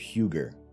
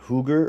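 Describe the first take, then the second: First: The first vowel is a 'you' sound. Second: The first vowel is a plain 'oo' sound.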